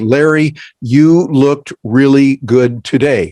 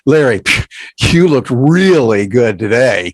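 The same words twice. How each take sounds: First: It is said in a plain, straightforward tone. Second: It is said in a playful, teasing tone. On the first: It is a simple compliment. "if I send you a text and I say" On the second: The speaker is poking fun at the listener. "I'm ribbing you, I'm poking fun at you"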